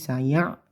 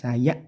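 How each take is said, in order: First: The ain consonant is clearly pressed. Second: The ain consonant is missing. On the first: The speaker calls it right. "tapi saya ya, itu ditekan ainnya" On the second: The speaker calls it wrong. "tidak saya"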